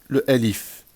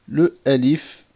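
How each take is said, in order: Both takes have the same delivery.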